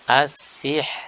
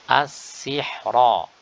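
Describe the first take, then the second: First: The r is thin and the word stops there. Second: The r is heavy and the ending is kept. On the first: The reader stops on this word. "maka dibaca dengan tipis" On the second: The word is read on without stopping. "Adapun ketika wasal maka dibaca dengan tebal"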